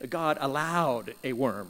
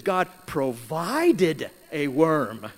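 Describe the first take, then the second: First: Said in the usual way. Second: "provided" slow and louder, leaned on; stress on PROVIDED. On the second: Shown as a demonstration. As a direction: hit "provided" slowly and firmly. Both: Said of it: "Interesting word".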